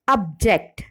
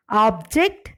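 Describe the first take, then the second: First: Ob-JECT, second syllable stressed in object; verb stress. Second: OB-ject, first syllable stressed in Object; noun stress. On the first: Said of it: "the stress falls on the second syllable". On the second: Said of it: "nouns or adjectives are stressed on". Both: Shown as a demonstration.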